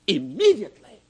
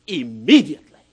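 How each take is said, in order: First: Said in the usual way. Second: Loud, falling "Immediately."; preacher driving home "Immediately."; forceful. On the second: Acted. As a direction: hit "Immediately." hard and drop it. Preacher repeats word for emphasis.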